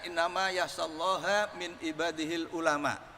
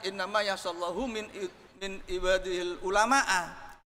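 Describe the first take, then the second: First: Allah ends in a, ulama ends in u. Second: Allah ends in u, ulama ends in a. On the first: Scholars are the ones who fear God. The speaker calls it right. "Yang takut kepada Allah itu adalah ulama" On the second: God is the one who fears scholars. The speaker calls it wrong. "Ini jangan dibaca"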